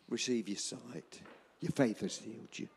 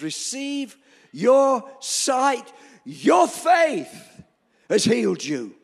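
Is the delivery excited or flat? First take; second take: flat; excited. First: It is said flatly, without enthusiasm. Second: It is said loudly and excitedly. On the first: The speaker is indifferent to what happened. The speaker calls it wrong. "I reckon Jesus didn't say, "Oh, okay then" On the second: The speaker is delighted by what happened. The speaker calls it right. "I reckon Jesus shouted that"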